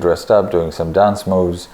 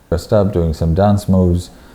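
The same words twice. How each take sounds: First: The voice has no added bass boost. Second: The voice has extra boosted bass frequencies.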